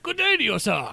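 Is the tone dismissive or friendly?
friendly. It is said in a warm, friendly tone. The speaker is greeting someone kindly. "it's like, "Hey, how's it going? Have a great day""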